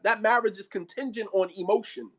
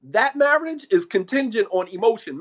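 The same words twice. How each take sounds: First: Said in the usual way. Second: Loud, hammered-out declaration; emphatic restatement. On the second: Real, not acted. Preacher judging an emotion-bound marriage, loud and emphatic. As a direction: drive the point home loudly.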